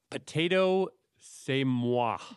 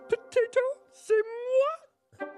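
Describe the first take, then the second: First: It is said in a normal voice. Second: It is said in a Miss Piggy voice.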